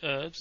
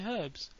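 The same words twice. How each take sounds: First: The word starts with a vowel, no h sound. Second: The word starts with a clear h sound. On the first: This is the American pronunciation. "you say herbs" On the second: This is the British pronunciation. "we say herbs because there's an H in it"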